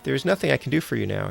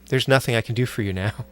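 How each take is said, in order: First: It is read in a cheerful tone. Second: It is read in a somber tone.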